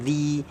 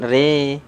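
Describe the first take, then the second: First: The vowel sounds like a clear 'i'. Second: The vowel sounds like a lowered 'e'. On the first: The speaker calls it right. "tapi ri" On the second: The speaker calls it wrong. "kasrah jangan re"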